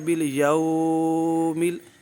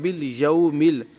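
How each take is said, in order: First: The vowel is stretched out long. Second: The vowel is short and soft, not stretched. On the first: The speaker calls it wrong. "अगर कोई इसको पढ़ता है बिल यौमिल तो उसने गलती की" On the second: The speaker calls it right. "बग़ैर खींचे"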